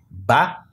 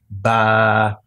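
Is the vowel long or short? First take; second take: short; long. First: The vowel is short. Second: The vowel is long. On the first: "sem nenhum prolongamento" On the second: "esta vogal pode ser prolongada através da escrita do alif"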